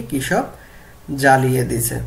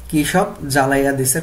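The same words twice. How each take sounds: First: Said in the usual way. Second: Bengali village dialect, quoted as an example; regional dialect. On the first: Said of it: "প্রমিত রূপ হবে কি?". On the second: Shown as a demonstration. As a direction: repeat the regional Bengali dialect form for students. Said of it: "গল্প থেকে আঞ্চলিক বাক্য দেখি".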